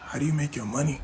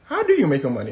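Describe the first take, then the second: First: Said in the usual way. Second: Loud, emphatic mock question; crowd echo. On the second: Everyone turns on Hush Puppy, loudly questioning. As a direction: demand it loudly, as the whole crowd.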